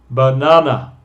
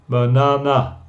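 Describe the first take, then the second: No difference in how they are said.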